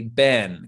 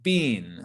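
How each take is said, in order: First: The vowel is short, like in ben. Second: The vowel is long, like in bean. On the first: This is the speaker's own usual pronunciation. "I personally would often say ben, kind of like B E N" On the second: This is a more British pronunciation. "in the U K, people will often say bean"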